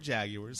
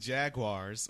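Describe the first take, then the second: First: It is said in a British accent. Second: It is said in an American accent.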